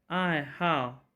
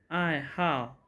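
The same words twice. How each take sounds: No difference in how they are said.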